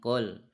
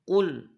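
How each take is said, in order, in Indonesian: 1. Vokal u dibulatkan sedikit. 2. Vokal u dibulatkan penuh. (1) "jangan qul" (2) "perhatikan u-nya sempurnakan u"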